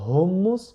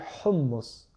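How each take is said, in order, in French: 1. Le h est un souffle léger et simple. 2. Le h est raclé au fond de la gorge. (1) "On ne dit pas hummus" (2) "ça vient vraiment du fond de la gorge"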